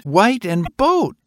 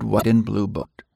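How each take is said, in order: First: Put-on high child voice, slowing on boat; a boy trailing off at his boat, slow; slow, high child's voice; excited little boy. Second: Said in the usual way. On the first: A narrator's reading.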